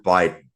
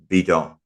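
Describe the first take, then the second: First: The word is pronounced the English way. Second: The word is pronounced the French way. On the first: "as you would pronounce it in English" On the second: "the French word for an empty jug"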